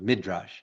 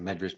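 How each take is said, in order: First: The first vowel sounds like 'ih'. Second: The first vowel sounds like 'eh'. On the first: This is the standard pronunciation. "but Midrash" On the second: This is the everyday community pronunciation. "We say Medrash"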